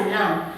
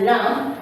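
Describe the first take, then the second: First: "lamb" ending softly on M, no B; correct silent B. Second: "lamb" with the B sounded at the end; wrong pronounced B. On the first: Teacher correcting a common mistake, "lamb" with silent B. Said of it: "it's supposed to be pronounced as lamb". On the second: Teacher showing a common mistake, "lamb" with audible B. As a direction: finish "lamb" on a released B after M. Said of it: "it's not supposed to be pronounced as lamb". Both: Shown as a demonstration.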